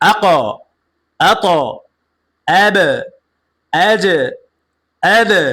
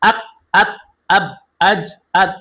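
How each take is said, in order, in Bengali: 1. শেষের ব্যঞ্জনগুলো প্রতিধ্বনিত ঝাঁকুনি দিয়ে ছাড়া হয়। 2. শেষের ব্যঞ্জনগুলো সমতলভাবে শেষ হয়, কোনো ঝাঁকুনি ছাড়া। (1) "ধাক্কা দিয়ে পড়তে হবে।" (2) "কখনোই আপনার পড়া কি হবে না? সহি হবে না"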